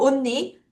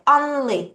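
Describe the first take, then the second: First: The L sound is left out. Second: The L sound is clearly pronounced. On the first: The speaker calls it wrong. "우리나라 말로 언니 이렇게 하죠" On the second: The speaker calls it right. "L 발음해줘야 돼"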